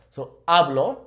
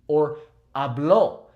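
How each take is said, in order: First: "hablo" stressed on HA; first-syllable stress. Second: "habló" with the last O stressed and held, slow; final O stress. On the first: Teacher stressing the first syllable of "hablo". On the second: Teacher slowly stressing the final O of "habló". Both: Shown as a demonstration. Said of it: "emphasizing the O".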